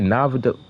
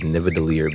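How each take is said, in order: First: The name is said short, with about two syllables. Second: The name is said in full, with four syllables. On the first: The speaker calls it wrong. "He said Navada" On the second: The speaker calls it right. "the correct pronunciation is Nidavellir"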